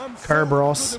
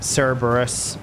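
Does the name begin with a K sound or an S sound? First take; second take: K sound; S sound. First: The name begins with a K sound. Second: The name begins with an S sound. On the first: This is how most other languages and the Greeks say it. The speaker calls it right. "which would be with a K sound" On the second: This is the English church-influenced pronunciation. The speaker calls it wrong. "they wanted all C sounds to be said with uh, with an S sound"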